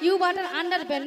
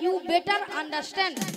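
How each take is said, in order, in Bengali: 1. 'you butter under ben' এভাবে বলা হয়। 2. 'you better understand' এভাবে বলা হয়। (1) "ইউ বাটার আন্ডার বেন নয়" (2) "বলো ইউ বেটার আন্ডারস্ট্যান্ড"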